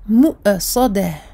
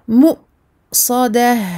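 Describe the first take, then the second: First: The glottal stop bounces with an added echoing vowel. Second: The glottal stop is a clean, abrupt cut-off. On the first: The speaker calls it wrong. "Vous ne la faites pas jongler. Je ne dois pas entendre ... C'est faux" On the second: The speaker calls it right. "on coupe uniquement le son ... on referme les cordes vocales d'un seul coup"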